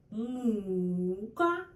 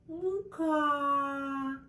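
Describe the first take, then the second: First: Мука with stress on the first syllable, МУ-ка. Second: Мука with stress on the second syllable, му-КА. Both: Shown as a demonstration. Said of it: "different words with different meanings".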